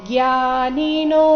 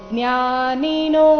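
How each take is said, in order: Both takes have the same delivery.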